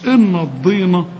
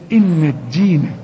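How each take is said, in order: First: The d sound is heavy and emphatic. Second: The d sound is plain and light. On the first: The speaker calls it wrong. "بتحول لي الدال لضاد" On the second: The speaker calls it right. "شوف الدال دي"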